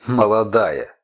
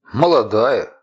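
First: Mocking mimicry. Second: Said in the usual way. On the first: A narrator's reading. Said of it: "язвительно произнесла она, словно кого-то передразнивая". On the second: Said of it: "stranger describes the woman".

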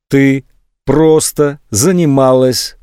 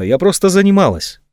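First: "Ты просто занималась" slow, each word set apart; раздельно, по слогам, медленно. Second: Said in the usual way. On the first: A narrator's reading. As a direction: spell it out word by word, coldly deliberate. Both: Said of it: "повторил он раздельно".

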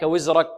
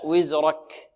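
First: وزرك with ك cut short; faulty kaf. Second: وزرك slowly with breathy ك; corrected kaf. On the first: Teacher showing students the mistake, unaspirated kaf. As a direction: end وزرك without breath on ك. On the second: Teacher correcting the mistake, slow aspirated kaf. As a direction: release air after ك in وزرك. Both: Shown as a demonstration. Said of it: "لا، وزرك".

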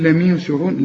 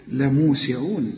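First: لميسعون with a wrong i after the meem; wrong vowel. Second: لموسعون with a clear u on the meem, slow; correct vowel. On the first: Teacher mimics student's mistake, plain voice. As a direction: say لميسعون with mi, the error. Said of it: "مش تقول". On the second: Teacher gives the correct reading, slow. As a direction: lengthen mu in لموسعون. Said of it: "لا، لمو، لمو". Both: Shown as a demonstration.

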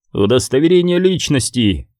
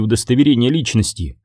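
First: Soldier's demand with a touch of hoarseness; understated hoarse official order. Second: Said in the usual way. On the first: A narrator's reading. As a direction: demand it like a soldier checking papers. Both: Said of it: "хрипло потребовал один из солдат".

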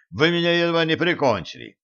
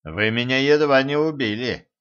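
First: Higher, fast, breathless protest; breathless complaint. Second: Calm, measured reproach; a wounded but composed reproach; reproachfully. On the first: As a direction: gasp it out still shaken. Choked man complains mid-coughing. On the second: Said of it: "укоризненно сказал он". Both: A narrator's reading.

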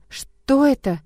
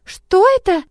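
First: Higher, stunned question; taken-aback adult's question; dumbfounded. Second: Put-on high, loud child's gasp of wonder; awestruck, much higher child voice; gasping girl. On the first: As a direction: barely get it out in amazement. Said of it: "только и смогла выговорить". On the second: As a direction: gasp it out like an amazed little girl. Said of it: "ахнула Амилота". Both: A narrator's reading.

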